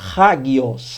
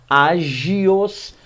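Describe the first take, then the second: First: The word begins with a breathy h sound. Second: The word begins directly with the vowel. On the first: This is how the speakers themselves say it. "mas nós pronunciamos hagios" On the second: Some people say it this way. "Há quem pronuncie agios"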